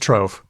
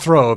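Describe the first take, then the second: First: The word begins with a plain t sound. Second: The word begins with a th sound. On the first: The speaker calls it right. "it's a trove" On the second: The speaker calls it wrong. "it's not a throve"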